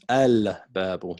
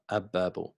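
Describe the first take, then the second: First: The word begins with a clear 'al' sound. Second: The 'l' blends into a doubled 'b' sound. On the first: The speaker calls it right. "So it's al-babu" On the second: The speaker calls it wrong. "not ab, ab-babu"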